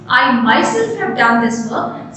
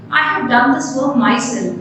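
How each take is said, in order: First: "myself" lifted as the key word; stress on MYSELF. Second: Said in the usual way. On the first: Shown as a demonstration. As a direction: put the emphasis on "myself", right after "I". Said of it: "the emphasis of self becomes more important".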